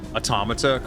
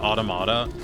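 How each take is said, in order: First: It has the usual English pronunciation. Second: It has a Japanese-style pronunciation. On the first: The speaker calls it right. "couldn't pronounce automata correctly" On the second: The speaker calls it wrong. "so they called it automata, which I fucking hate"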